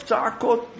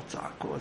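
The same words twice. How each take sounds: First: Exclaimed. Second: צעקות breathed in a whisper, much lower and softer. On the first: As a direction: call out צעקות like the shouting itself. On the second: Preacher retelling the shouting, now in a whisper. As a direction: drop צעקות to a hushed whisper. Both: Shown as a demonstration.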